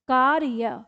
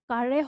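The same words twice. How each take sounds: First: The r is said as a full syllable. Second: The r is said very quickly, as half. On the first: The speaker calls it wrong. "अगर मान लो हम इस र को पूरा दे दें" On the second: The speaker calls it right. "र जो है वो बहुत जल्दी से बोलता है"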